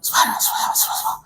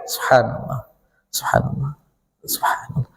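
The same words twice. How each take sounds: First: It is said quickly and hurriedly. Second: It is said slowly and with feeling.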